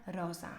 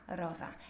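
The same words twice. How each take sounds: No difference in how they are said.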